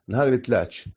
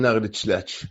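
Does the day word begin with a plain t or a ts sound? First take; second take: plain t; ts sound. First: The day word begins with a plain t sound. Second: The day word begins with a ts sound. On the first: The speaker calls it right. "שימו לב שאומרים" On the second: The speaker calls it wrong. "לא אומרים"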